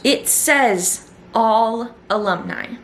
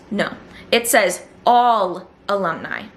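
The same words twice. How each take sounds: First: Slow, deliberate: it says all alumni; slow emphasis on all. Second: All punched, falling finish; stress on all. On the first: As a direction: spell out all alumni word by word. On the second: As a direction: hit the word all firmly. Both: Shown as a demonstration. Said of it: "And I'm emphasizing the word all".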